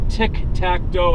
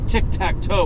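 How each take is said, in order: First: The last word starts with a D sound. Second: The last word starts with a T sound. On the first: The speaker calls it wrong. "not dough" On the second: The speaker calls it right. "would be the right way to say it"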